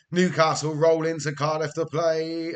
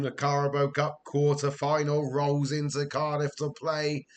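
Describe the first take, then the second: First: Louder, stress on roll; mock announcement. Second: Said in the usual way. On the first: Real, not acted. Announcing Newcastle coming to Cardiff, punchy mock-announcer stress.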